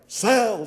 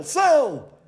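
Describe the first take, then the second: First: High, louder trading-floor call; businessman barking an order. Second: Much higher, louder shout of the word; businessman shouting. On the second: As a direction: push it up to a full trader's shout. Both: A narrator's reading. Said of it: "He said things like".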